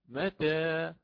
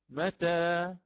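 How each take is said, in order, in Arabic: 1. الحركة الأخيرة مائلة قليلا نحو e. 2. الحركة الأخيرة فتحة كاملة a. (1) "هكذا بالتقليل" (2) "بوجه الفتح"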